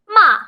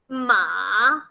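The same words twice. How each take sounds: First: The pitch falls sharply from high to low. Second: The pitch dips down, then rises. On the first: It means to scold. "going down really hard" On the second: It means horse. "first down, then up"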